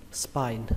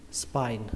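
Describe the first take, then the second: No difference in how they are said.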